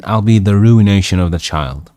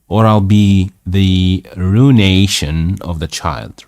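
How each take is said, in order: First: "ruination" said roo-ih-NAY-shun, the i sounded; ruination with separate I. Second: "ruination" said roo-NAY-shun, without a separate i; ruination run together. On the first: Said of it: "Ruination. Okay". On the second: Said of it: "That's from ruined". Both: Real, not acted.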